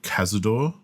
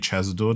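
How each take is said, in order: First: The name begins with a hard k sound. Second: The name begins with a ch sound. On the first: "called Cazador" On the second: "or maybe Chazador, depending on how you pronounce it"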